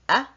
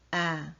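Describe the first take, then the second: First: It starts with a sharp glottal catch. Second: It is a smooth vowel with no catch. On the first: "this is a consonant sound" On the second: "this is the uh, vowel sound"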